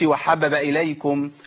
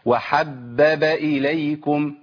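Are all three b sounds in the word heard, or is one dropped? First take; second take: one dropped; all three. First: One of the three b sounds is dropped. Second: All three b sounds are pronounced clearly. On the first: The speaker calls it wrong. "ما اقولش" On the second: The speaker calls it right. "لازم انطق ايه؟ ثلاث باءات"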